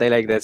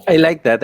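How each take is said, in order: First: Said in the usual way. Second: Emotional and high, voice lifting; moved. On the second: Real, not acted. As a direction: say it touched and emotional. Moved reaction to story.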